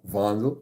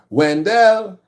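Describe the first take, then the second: First: The name is said with a German accent. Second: The name is said with a Trinidadian accent. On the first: "which is the German" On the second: "If you're Trinidadian, ... they'll say Wendell"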